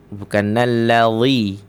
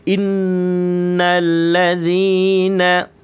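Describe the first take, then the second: First: Nalladzi with a heavy emphatic dh; wrong reading. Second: Innalladzina chanted high and slow, light dh; sung, draw out innalladzina in a long melodic line; sung, Quran recitation. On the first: Teacher imitating a wrong reading for students. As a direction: show the heavy nalladzi as the mistake. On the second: Teacher chanting the correct reading for students. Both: Shown as a demonstration.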